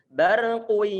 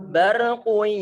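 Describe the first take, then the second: Both takes have the same delivery.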